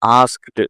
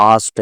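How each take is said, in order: First: "ఆస్క్డ్" with K and final stop both sounded; full cluster. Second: "ఆస్ట్" as "aast", with no K; dropped K. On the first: Teacher shows the hard original, "ఆస్క్డ్" in full. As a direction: articulate every consonant of "ఆస్క్డ్". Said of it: "ఇది కష్టంగా ఉంది కదా". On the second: Teacher shows elision to learners, "ఆస్ట్" without K. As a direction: skip the K of "asked", giving "ఆస్ట్". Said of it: "కా తీసేశారు". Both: Shown as a demonstration.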